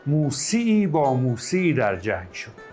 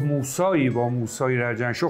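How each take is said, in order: First: The name is said with the shifted 'ee' vowel. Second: The name is said with the long 'aa' vowel. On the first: This form keeps the poem's meter. The speaker calls it right. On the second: This form would break the poem's meter. The speaker calls it wrong.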